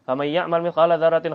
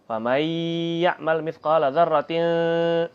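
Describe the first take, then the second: First: The nasal sounds are cut short, not held. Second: The nasal sounds are held for two counts. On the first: The speaker calls it wrong. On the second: The speaker calls it right. "gunnahnya ditahan"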